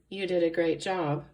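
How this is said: It is said in a flat, bored tone. The speaker calls it wrong. "it wouldn't be showing excitement. It'd be pretty boring"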